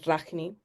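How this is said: The name is said in a Spanish way.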